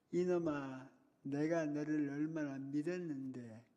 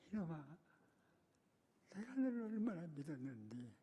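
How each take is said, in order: First: Slow, pleading reproach with each word weighed; teacher's lament. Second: Soft, choked reproach, voice breaking; quietly heartbroken scolding through tears; tearful teacher. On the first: Crying teacher repeats his hurt to the boy, slow and pleading. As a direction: lean on 내가, slow and aching. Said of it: "울면서". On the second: Weeping teacher to the pupil he trusted, soft and tearful. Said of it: "그렇게, 그렇게 우는 거예요". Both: Retold or imitated.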